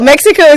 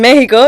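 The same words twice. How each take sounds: First: The word is said with English pronunciation. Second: The word is said with Spanish pronunciation. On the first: "Mexico is English" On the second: "like in Spanish"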